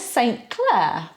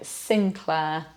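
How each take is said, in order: First: The name is pronounced following its spelling. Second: The name is pronounced unlike its spelling. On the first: The speaker calls it wrong. "you'd think that was quite obvious" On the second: The speaker calls it right. "No, Sinclair"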